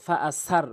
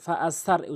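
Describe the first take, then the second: Both takes have the same delivery.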